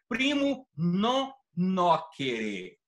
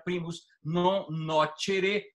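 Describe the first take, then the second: First: The c in nocere sounds like k. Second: The c in nocere sounds like ch. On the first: "A pronúncia do latim reformado é primo non nocere. O C tem som de K" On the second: "eclesiástico pronuncia primus non nocere e está correta a pronúncia também"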